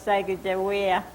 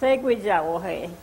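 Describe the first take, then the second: First: The name ends with a 'way-uh' sound. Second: The name ends with a 'wo-he' sound. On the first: This is the form commonly heard today. "nowadays I hear Seguijawea" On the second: This is the traditional native form of the name. "they called her Seguijawohe for Indian"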